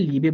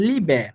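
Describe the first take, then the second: First: লিবে as many learners say it, with a plain close final e; লিবে ending in a tight, unrelaxed e; common variant pronunciation. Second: লিবে with a light, open "eh" at the end; correct pronunciation. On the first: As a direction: say লিবে without opening the last vowel to "eh". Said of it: "অনেকে দেখবেন যে লিবে বলতেছে". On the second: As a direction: say লিবে as LEE-beh, last vowel like Bengali এ. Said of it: "শুদ্ধ উচ্চারণের জন্য আমরা বলবো". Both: Shown as a demonstration.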